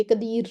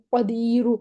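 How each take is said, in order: First: قدیر cut off sharply on the ر, no vowel; abrupt stop. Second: قدیرو ending with a faint u sound after the ر; rawm stop. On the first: Teacher showing the wrong way, abrupt clipped stop. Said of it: "بس بالکل ٹھک کر کے را پہ ہم وقف نہیں کر دیں گے". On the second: Teacher showing the right way, faint u on the ر. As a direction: let a trace of u sound on the ر of قدیرو. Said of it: "را کو تھوڑی سی پیش کی آواز دیں". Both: Shown as a demonstration.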